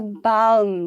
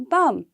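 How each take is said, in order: First: The L sound is pronounced. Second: The L sound is left silent. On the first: The speaker calls it wrong. "We don't say balm" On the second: The speaker calls it right. "The L remains silent. It will be only balm"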